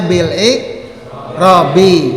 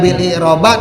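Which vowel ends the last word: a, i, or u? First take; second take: i; a. First: The last word ends with an i vowel. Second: The last word ends with an a vowel. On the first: The speaker calls it right. "kita pasti membacanya bil i'rabi" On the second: The speaker calls it wrong. "tidak bil i'roba"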